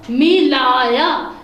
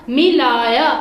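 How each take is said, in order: First: Slow, drawn-out मिलाया with each syllable held; slow model reading. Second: Said in the usual way. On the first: Shown as a demonstration. Teacher models the word मिलाया slowly for students. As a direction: read मिलाया slowly for the class. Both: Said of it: "ये अलिफ या".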